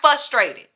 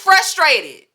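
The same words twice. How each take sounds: First: No R sound follows the F. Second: An R sound follows the F. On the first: The speaker calls it wrong. "disregard the R after the F" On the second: The speaker calls it right. "It's frustrated"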